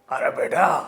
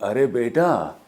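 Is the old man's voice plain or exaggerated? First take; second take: exaggerated; plain. First: It is said in an exaggerated, funny old-man voice. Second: It is said in a plain, ordinary way.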